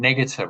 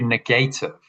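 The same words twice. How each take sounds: First: The word is said the usual everyday way. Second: The first part is said like 'negate'. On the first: "which is how we normally say it" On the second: "change it to negative"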